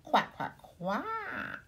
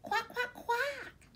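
First: Louder, rising little duck quacks; louder duckling quacks. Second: Much higher, tiny duckling voices; squeaky little baby duck quacking; high duckling quacks. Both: Acted. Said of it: "say the ducklings".

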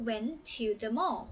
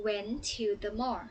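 First: Said in the usual way. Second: Went to the mall, stretched out very slowly; slow, careful teacher model; slow model phrase. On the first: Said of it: "เพราะฉะนั้นคำว่า". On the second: Shown as a demonstration. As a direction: spell it out slowly so the kids can copy. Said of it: "คำว่า went to the mall".

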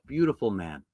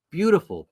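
First: Said in the usual way. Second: "Beautiful" lifted high and stressed, then falls; emphatic beautiful. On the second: Real, not acted. Preacher praising Elisha, "Beautiful" lifted high. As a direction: lean into "Beautiful" with a high, admiring lift.

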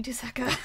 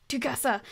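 First: "Tusaka" said with the s before the k, tu-SA-ka; wrong name order. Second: "Tukasa" said with the k before the s, tu-KA-sa; corrected name. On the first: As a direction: swaps the syllables of the name into "Tusaka". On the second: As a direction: fixes the name to "Tukasa" carefully. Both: Real, not acted. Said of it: "Why do I always say his name like that?".

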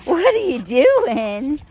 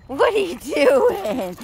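First: Louder pet talk. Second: Pet talk. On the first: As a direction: coo louder with a rising end. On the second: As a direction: coo at the puppy. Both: Real, not acted. Talking to her dog.

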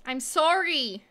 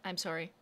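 First: Higher, louder drawn-out sorry; loud pleading sorry. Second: Soft, lower, meek sorry; quiet apology. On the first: To the stalled nail robot, begging forgiveness, loud and pleading. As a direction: plead loudly with the machine. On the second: To the nail robot, apologizing after getting heated, quietly. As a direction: apologize meekly to the machine. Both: Real, not acted. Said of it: "Sorry, I'm getting heated".

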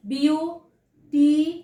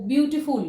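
First: বিউটিফুল in three drawn-out syllables with pauses between; broken into syllables. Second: Said in the usual way. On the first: Shown as a demonstration. Teacher showing how syllables break, বিউটিফুল slowly split in three. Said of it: "দেখো এখানটা syllable ভাঙা যাচ্ছে". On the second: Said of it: "syllable ভাঙা যাচ্ছে".

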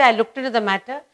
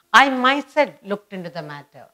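First: Said in the usual way. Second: "I myself" hit firmly and louder; emphatic "I myself" at the front of the sentence; stress on "I myself". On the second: Shown as a demonstration. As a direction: lean hard on "I myself", then ease off. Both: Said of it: "You are emphasizing I myself".

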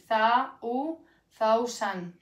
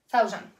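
First: "Za", then "u", then slowly "thousand"; syllable by syllable. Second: Said in the usual way. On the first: Shown as a demonstration. Teacher showing how thousand is pronounced, slow and broken up. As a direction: build "thousand" from th-a and u, drawn out. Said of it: "se pronunciaría así". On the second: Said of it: "Esta sería la pronunciación".

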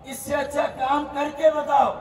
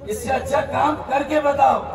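No difference in how they are said.

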